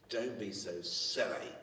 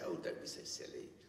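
First: It is said in a harsh, hostile tone. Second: It is said in a gentle, friendly tone.

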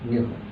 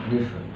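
Both takes have the same delivery.

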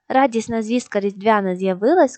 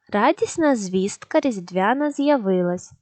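First: The line is read at a faster pace. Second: The line is read at a slow pace. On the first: "Тепер спробуємо швидше" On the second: "Спочатку повільно"

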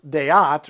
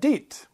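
First: The vowels are split into two syllables. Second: The vowels merge into one long syllable. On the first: The speaker calls it right. "the vowel in question gets a syllable all of its own" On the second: The speaker calls it wrong. "rather than deet"

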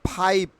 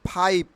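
No difference in how they are said.

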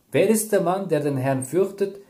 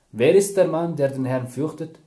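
The two takes are said the same way.

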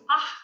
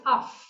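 First: A sharp breathy sound at the back of the mouth. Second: A breathy sound made between the lips. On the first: The sound comes before a k. "When it is before ka, it's ah, very sharp" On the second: The sound comes before a p. "Before pa, it's af with the lips"

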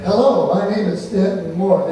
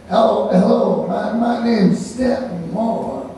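First: It is said in a crisp, standard American way. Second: It is said in a laid-back New Orleans way. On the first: The speaker calls it wrong. "in New Orleans they don't talk like" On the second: The speaker calls it right. "They talk like"

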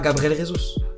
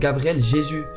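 First: The name is said the commonly used way. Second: The name is said the Brazilian Portuguese way. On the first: The speaker calls it wrong. "c'est pas Gabriel Jesus" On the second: The speaker calls it right. "En brésilien c'est Jésus"

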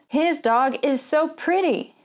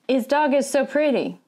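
First: The H at the start is clearly pronounced. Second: The H at the start is dropped.

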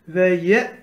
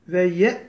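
The two takes are said the same way.

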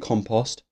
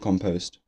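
First: The word is said in a non-American way. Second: The word is said in an American way. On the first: "I say compost" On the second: "I think Americans say compost"

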